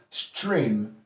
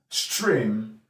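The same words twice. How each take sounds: First: The word begins with a sht sound. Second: The word begins with a sht sound.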